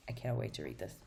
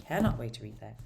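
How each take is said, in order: First: Said in the usual way. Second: CANNOT punched louder at the start; emphatic, loud Cannot; stress on CANNOT. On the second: Real, not acted. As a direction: hit the word Cannot hard, then ease off. Repeats it for emphasis.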